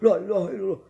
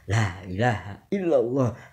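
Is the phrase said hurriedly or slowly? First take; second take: hurriedly; slowly. First: It is said fast and in a panicked rush. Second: It is said slowly and with measured care. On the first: The speaker is reciting in panic. The speaker calls it wrong. "saking paniknya" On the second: The speaker is calmly remembering God. The speaker calls it right. "Jadi harus tartil"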